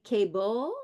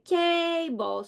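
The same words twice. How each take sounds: First: CABLE stressed on the second syllable, rising at the end; wrong stress. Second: CABLE with a long, strong first syllable; first-syllable stress. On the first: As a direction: say cable as kay-BULL, questioning rise. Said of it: "it's unaccented". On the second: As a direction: say cable as KAAY-bul, drawn out on KAY. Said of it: "the stress will be on the first syllable". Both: Shown as a demonstration.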